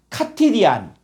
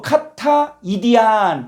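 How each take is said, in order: First: One word is said, the first vowel dropped. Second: Two words are said, both vowels kept. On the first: "이렇게 읽으라는 거예요" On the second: "알파가 생략되고"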